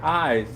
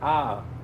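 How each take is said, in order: First: The vowel glides like standard 'eye'. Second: The vowel is a flat, unglided 'ah'. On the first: "They don't say eyes" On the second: "they say ah"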